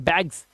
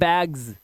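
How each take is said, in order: First: The word ends with a hissing s sound. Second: The word ends with a buzzing z sound. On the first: The speaker calls it wrong. "इसे ना बैग्स नहीं पढ़ेंगे" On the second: The speaker calls it right. "इसे पढ़ते हैं बैग्स"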